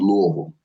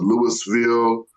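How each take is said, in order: First: It is pronounced the way locals say it. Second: It is pronounced the way outsiders say it. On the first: The speaker is from there. The speaker calls it right. "but we pronounce it Louisville" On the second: The speaker is not from there. The speaker calls it wrong. "some people pronounce it Louisville"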